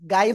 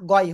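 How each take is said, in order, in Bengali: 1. শুরুটা হালকা ও পাতলা, 'gai'-এর মতো। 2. শুরুটা ভারী ও মোটা, 'ghoy'-এর মতো। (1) "গাই হয় না" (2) "মোটা আওয়াজে পড়তে হয়। ... গয় হয়।"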